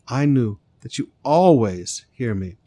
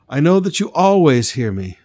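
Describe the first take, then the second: First: Said in the usual way. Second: Jesus's line, proclaimed loud with a hard stress on "always"; louder prayer quote. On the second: Acted. Jesus praying to the Father before the crowd, proclaimed loud.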